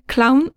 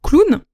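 First: It is said with an English pronunciation. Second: It is said with a French pronunciation. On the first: "en anglais, clown. Bon, j'ai un accent horrible" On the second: "prononcé à la française"

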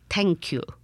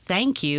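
First: It is said with a German accent. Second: It is said in a plain accent.

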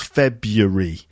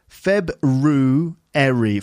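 First: The word has three syllables without the first r. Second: The word has four syllables with the first r heard. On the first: "when they say that word quickly, they actually make it three syllables" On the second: "pronounced fully with February. Can you hear the R in there?"

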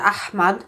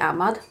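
First: The h is a harsh, throaty sound. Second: The h is a plain, soft sound. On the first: This is closer to how native speakers might say it. "jag orkar inte hålla på och harkla mig hela tiden" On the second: This is an easier, local way of saying it. "Så jag säger Ahmad"

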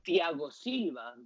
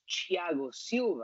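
First: The name is pronounced with Spanish sounds. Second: The name is pronounced with Brazilian Portuguese sounds. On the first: The name is adapted to another language. The speaker calls it wrong. "it's like you translated it to Spanish" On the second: The name is said as its owner says it. The speaker calls it right. "but his name is Thiago Silva"

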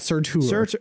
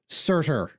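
First: The name is said with French-like sounds. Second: The name is said with plain English sounds. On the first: The speaker calls it wrong. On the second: The speaker calls it right.

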